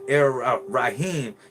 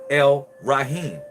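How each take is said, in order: First: The article is said with an r sound. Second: The article is said with an l sound. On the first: The speaker calls it wrong. "you're saying it wrong" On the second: The speaker calls it right. "It's El Rahman, El Rahim"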